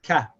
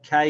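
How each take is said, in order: First: "ka" open with short a; "ka" as an open syllable; demo syllable ka. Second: "kai" with ka gliding into y; "kai" closed on the y; demo syllable kai. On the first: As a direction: say "ka" alone, clean. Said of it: "it's pronounced". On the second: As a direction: join ka and ya as "kai". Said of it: "we say kai". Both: Shown as a demonstration.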